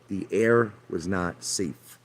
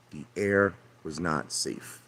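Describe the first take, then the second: First: Each word slow and deliberate, The air was not safe; slow insistence. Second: The air was not safe repeated slow and much softer; slow, sinking quieter. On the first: Insists wife's cancer was environmental. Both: Real, not acted.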